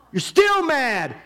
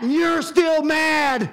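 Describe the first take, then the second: First: God pressing the point home, slow; God repeating, firmer. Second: Shouted, slow, high; God yelling at Jonah, slow and loud; God shouting. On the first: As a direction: let the anger settle onto still. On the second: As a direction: slam it down as an angry God. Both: Acted. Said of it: "God is trying to say".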